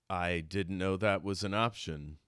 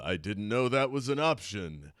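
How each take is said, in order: First: It is said in his natural voice. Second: It is said in a put-on Montrose voice.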